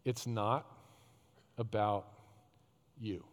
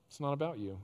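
First: "It's not about you" said low, each word set apart by long pauses; slow deliberate quote. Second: Said in the usual way. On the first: Shown as a demonstration. Preacher quoting the first line of Rick Warren's book, slow and weighty. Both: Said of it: "the first sentence of that book, is".

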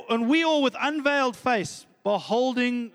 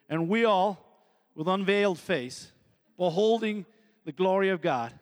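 First: Said in the usual way. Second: Badly faked Southern American accent; joking attempt at an American accent; terrible American accent. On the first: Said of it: "sounds like it was Southern American". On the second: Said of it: "That's a terrible American accent".

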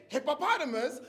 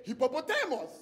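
First: "hippopotamus" said the American way; American pronunciation. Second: "hippopotamus" in a Ghanaian accent, stressed "TEH-mos" ending; Ghanaian pronunciation. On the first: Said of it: "You say". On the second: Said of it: "I say". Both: Shown as a demonstration.

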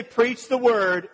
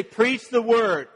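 First: "Preach the word" as a ringing command; exclamation point. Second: "Preach the word" slow, high and emphatic, every word hit; all caps. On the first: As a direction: PREACH THE WORD said higher, slow and forceful. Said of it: "exclamation point". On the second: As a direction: stamp each word like bold capitals. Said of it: "all caps, bold text". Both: Retold or imitated.

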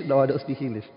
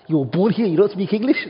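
First: Said in the usual way. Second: Incredulous rise on don't, a bit louder; shocked question. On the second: Retold or imitated. Imagined Brit asks a UK-born man, incredulous. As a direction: ask it in disbelief.

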